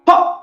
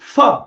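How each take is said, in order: First: The consonant is said as a breathy p. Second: The consonant is said like an f. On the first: This is how the letter is read in Sanskrit. "சம்ஸ்கிருதத்துல இந்த அக்ஷரத்த பார்க்கும்போது ப அப்படின்னு சொல்லணும்" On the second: This is how the letter is read in Hindi. "அங்க ஃப, ஃப அப்படின்னு சொல்லிக் குடுத்திருப்பான்"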